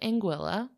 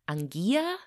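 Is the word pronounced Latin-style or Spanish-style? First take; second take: Latin-style; Spanish-style. First: The word is pronounced in a Latin way. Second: The word is pronounced in a Spanish way. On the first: The speaker calls it right. "I'm pretty sure that's how you pronounce it" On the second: The speaker calls it wrong. "my assumption was that it would be pronounced anguilla"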